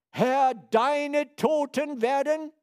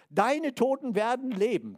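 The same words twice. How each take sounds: First: „Herr, deine Toten werden“ read slowly and loudly, higher, each word weighted; solemn misquote. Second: „Deine Toten werden leben“ said louder and higher at normal pace, stress on „Deine“; corrected quote. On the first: Preacher quoting Isaiah wrongly at first, slow loud solemn. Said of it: "nee, steht da nicht". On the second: Preacher giving the correct Isaiah verse, firm and raised. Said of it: "steht dort". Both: Shown as a demonstration.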